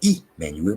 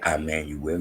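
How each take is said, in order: First: The name begins with an 'ee' sound. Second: The name begins with an 'eye' sound. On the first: The speaker calls it right. "you say E Manuel" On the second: The speaker calls it wrong. "you don't say I Manuel"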